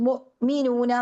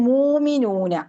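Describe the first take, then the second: First: A glottal stop follows the first vowel. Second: A long vowel replaces the glottal stop. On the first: This is how one reading tradition says it. "ഹംസക്ക് സുക്കൂൻ കൊടുത്തിട്ട് നമ്മൾ മുഅ്മിനൂന എന്നാ നമ്മൾ പറയാ" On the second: This is how other reading traditions say it. "അവര് പറയാന് മൂമിനൂന"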